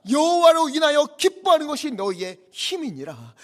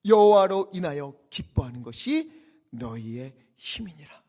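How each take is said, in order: First: High, loud proclamation of scripture; full-force preaching. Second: Said in the usual way. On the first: Acted. Preacher declares the key verse to the weeping people, full-force preaching. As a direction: ring the verse out over the whole congregation.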